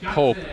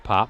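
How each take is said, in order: First: The vowel is a long 'oh' sound. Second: The vowel is a short 'ah' sound. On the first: The speaker calls it wrong. "I was calling him Pope" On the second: The speaker calls it right. "apparently not. So these, uh, this is Andrew Pop"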